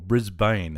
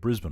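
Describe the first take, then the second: First: It is said the way outsiders say it. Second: It is said the local Australian way.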